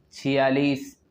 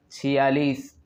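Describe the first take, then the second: No difference in how they are said.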